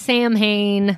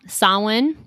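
First: It is said like 'sam-hane'. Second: It is said like 'sow-in'. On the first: The speaker calls it wrong. "It is not Samhain" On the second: The speaker calls it right. "So that's how it's pronounced, y'all"

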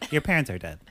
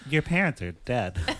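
First: It is delivered plainly, without dramatic acting. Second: It is delivered with exaggerated, dramatic acting.

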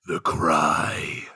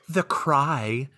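First: It is said with strong dramatic emphasis. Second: It is said flatly, without emphasis.

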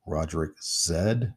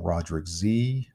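First: The final letter is pronounced as zed. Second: The final letter is pronounced as zee.

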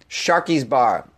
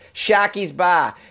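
First: It is said in the speaker's plain accent. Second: It is said in a Boston accent.

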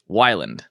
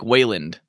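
First: The first vowel sounds like 'why'. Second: The first vowel sounds like 'way'. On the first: The speaker calls it right. "How do you say it?" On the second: The speaker calls it wrong. "I get Wayland a lot. I'm like, Blake Wayland. Like, there's no A there"

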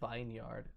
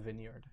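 First: The first vowel is a long I sound. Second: The first vowel is a short I sound. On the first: "why don't you say vineyard" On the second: "instead of vineyard"

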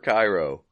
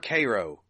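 First: It is said the way the Egyptian city is named. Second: It is said the way the small town says it. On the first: The speaker calls it right. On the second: The speaker calls it wrong.

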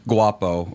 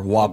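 First: The word is said in its standard form. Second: The word is said in a dialect form.

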